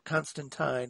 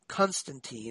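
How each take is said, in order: First: The name has a British pronunciation. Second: The name has an American pronunciation.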